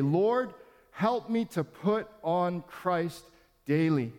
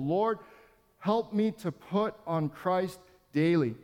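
First: Slow prayerful "Lord, help me to put on Christ daily". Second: Slow repeated prayer, "help" leaned on. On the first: Pastor leading the church in a daily prayer, slow and prayerful. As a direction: pray it slowly, leaning on "help". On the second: Acted. Pastor repeating the prayer for the church to echo, slow and prayerful. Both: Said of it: "Repeat this prayer".

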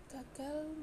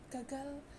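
The two takes are said the same way.

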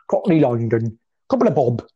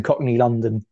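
First: Hammed-up Cockney twang; jokey Cockney London voice; Cockney accent. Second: Said in the usual way. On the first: Shown as a demonstration. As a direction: put on a mock Cockney accent. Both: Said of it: "doing a slightly Cockney accent there".

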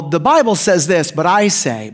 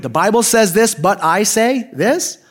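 First: Said in the usual way. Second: "but I say this?" drawn out slowly, rising at THIS; incredulous echo. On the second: Retold or imitated. Listener echoing Jesus's claim, incredulous, "this?" rising. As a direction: repeat it in disbelief, "this?" lifted into a question.

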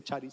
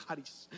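First: Charis said with a ch as in church, chah-rees; wrong pronunciation. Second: Charis said with a hard k, kah-rees; correct Greek pronunciation. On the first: Pastor showing the congregation the wrong way to say charis. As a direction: say charis with a Spanish ch sound. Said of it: "pero no se dice charis". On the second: Pastor teaching the congregation the right way to say charis. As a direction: say charis starting with a k sound. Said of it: "se dice charis". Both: Shown as a demonstration.

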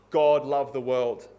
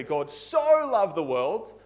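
First: Said in the usual way. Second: Slow, leaning hard on "so" as "so much"; emphatic so. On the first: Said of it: "in this way". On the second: Shown as a demonstration. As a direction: stretch "so" as if it meant intensity. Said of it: "It's not saying emphatically".

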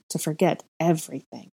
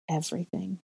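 First: Said in the usual way. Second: Hushed echo. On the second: A narrator's reading. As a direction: drop to a near-whisper, softer. Echoed word after a long pause.

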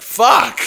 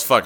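First: A short higher, louder yelled fuck; mock yell. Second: Said in the usual way. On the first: Drunk friend outside the door yelling in a retold mock yell. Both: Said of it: "Just yells".

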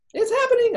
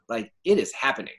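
First: Squeaky high excited quote; high-pitched mock squeal; gif quote. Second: Said in the usual way. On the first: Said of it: "I think of the emoji, like, sorry, the gif".

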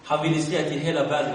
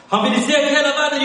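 First: Said in the usual way. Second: Rising emphatic repeat. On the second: Acted. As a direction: drive the repeat up with fervour. Preacher repeats line for emphasis.

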